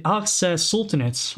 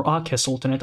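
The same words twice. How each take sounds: First: Aceh said as "AK-seh"; Aceh with ks sound. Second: Aceh said as "AH-keh"; Aceh with k sound. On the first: Streamer trying one reading of a sultanate's name, Aceh as "AK-seh". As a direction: say Aceh with a k-s in the middle. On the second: Streamer offering the other reading of a sultanate's name, Aceh as "AH-keh". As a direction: say Aceh with a lone k, no s. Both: Shown as a demonstration. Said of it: "which one is the right pronunciation".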